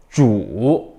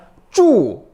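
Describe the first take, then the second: First: The pitch dips low and then rises. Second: The pitch falls sharply from high to low. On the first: "삼성" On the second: "사성"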